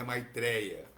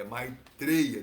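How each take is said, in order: First: "Maitreya" with open é, mai-TRÉ-ya; Portuguese pronunciation. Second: "Maitreya" with closed e, mai-TREY-a, slow and louder; Sanskrit pronunciation. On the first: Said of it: "não é Maitreya". ("Maitreya" com é aberto, à portuguesa) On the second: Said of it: "não estou pronunciando de forma errada". ("Maitreya" com e fechado, à sânscrita) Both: Shown as a demonstration.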